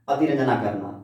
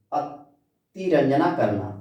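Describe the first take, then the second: First: Said in the usual way. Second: Drawn out slowly for the class; slow repeat. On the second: Shown as a demonstration. Teacher repeating the Hindi word अतिरंजना slowly for students. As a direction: say each syllable slowly so students catch it.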